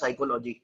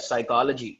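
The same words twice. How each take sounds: First: It is said with a regional Indian pronunciation. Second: It is said with a standard English pronunciation. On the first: The speaker calls it wrong. "हमारी regional language में इसको बोला जाएगा साइकोलॉजी, जबकि ये गलत pronunciation है" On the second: The speaker calls it right. "इसको बोला जाता है साइकोलॉजी"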